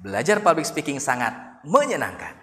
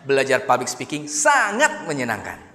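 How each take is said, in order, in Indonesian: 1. Tekanan jatuh pada kata menyenangkan. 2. Tekanan jatuh pada kata sangat. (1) "dikata ujungnya, menyenangkan" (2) "dikata sangatnya"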